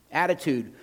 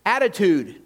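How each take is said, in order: First: Said in the usual way. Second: "Attitude" said loud and high, falling; emphatic word. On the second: Shown as a demonstration. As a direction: proclaim "Attitude" with force.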